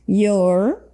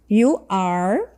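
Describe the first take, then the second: First: The two words merge into one syllable. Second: Two separate words are said, with no contraction. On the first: "Como que é a forma abreviada?" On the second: "Essa é a forma completa"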